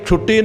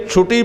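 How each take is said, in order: First: ਛੁੱਟੀ said with a doubled, held ਟ, as in the school holiday; ਗਲਤ ਉਚਾਰਨ. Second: ਛੁੱਟੀ said with a single light ਟ, as ਛੁਟੀ; ਸਹੀ ਉਚਾਰਨ. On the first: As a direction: misread ਛੁੱਟੀ with a heavy double ਟ. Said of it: "ਇਹਨੂੰ ਛੁੱਟੀ ਨਹੀਂ ਪੜ੍ਹਨਾ ਕਦੀ". (ਛੁੱਟੀ ਦਾ ਟ ਦੂਹਰਾ ਕਰਕੇ ਬੋਲੋ) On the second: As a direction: read ਛੁੱਟੀ without doubling the ਟ. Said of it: "ਇਹਨੂੰ ਛੁੱਟੀ ਪੜ੍ਹਨਾ ਹੈ". (ਛੁੱਟੀ ਨੂੰ ਅੱਧਕ ਤੋਂ ਬਿਨਾਂ ਬੋਲੋ) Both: Shown as a demonstration.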